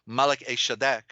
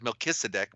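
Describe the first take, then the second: First: The name is said as Malach-Eshadek. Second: The name is said as Melchizedek. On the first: The speaker calls it right. "but it's Malach-Eshadek" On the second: The speaker calls it wrong. "mispronounced as Melchizedek"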